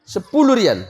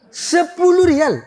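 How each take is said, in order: First: Said in the usual way. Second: Drawn-out merchant price. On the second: Acted. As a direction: stretch the price out like a haggling seller.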